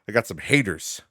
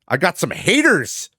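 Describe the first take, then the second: First: It is said more quietly, further from the mic. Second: It is said very loudly, close to the mic.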